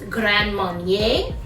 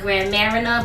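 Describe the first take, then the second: First: The second word is said like 'Marnier'. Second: The second word is said like 'Marina'. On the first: The speaker calls it right. "It's Grand Marnier" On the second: The speaker calls it wrong. "I like to call it Grand Marina, but that's not the way you pronounce it"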